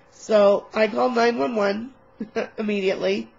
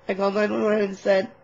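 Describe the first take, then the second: First: Laughing. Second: Said in the usual way. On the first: Real, not acted.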